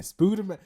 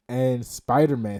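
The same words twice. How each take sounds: First: Spider-Man said as "Spooderman" with an oo; Spider-Man, then "Spooderman" said with a long oo. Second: Said in the usual way. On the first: Shown as a demonstration. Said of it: "Spooderman is back".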